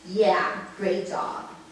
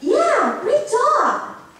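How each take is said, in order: First: The tone sounds displeased and unimpressed. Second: The tone sounds pleased and sincere. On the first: The performance is not satisfying. "people who said the second sentence is not" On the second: The performance is satisfying. "People who said the first sentence is satisfied with their performance"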